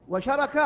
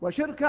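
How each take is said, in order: First: The vowels follow the pattern of arafa. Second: The vowels follow the pattern of hikma. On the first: "وشركة على وزن عرفة" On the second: "وشركة على وزن حكمة"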